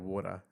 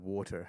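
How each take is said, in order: First: Said the Aussie way, with the final R dropped. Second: Said the American way, with a strong final R.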